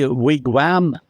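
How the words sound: The word is said the European way. "in Europe we say wigwam"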